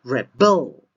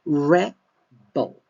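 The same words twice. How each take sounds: First: Rebel with loud, long BEL; verb stress on REBEL. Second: Rebel with loud REB, then a split; noun stress on REBEL. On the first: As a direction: punch the second syllable of Rebel. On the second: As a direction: punch the first syllable of Rebel. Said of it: "stress is in the first syllable". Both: Shown as a demonstration.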